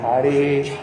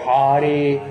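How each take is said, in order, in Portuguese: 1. O R é feito encostando no céu da boca. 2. O R é feito encostando no céu da boca.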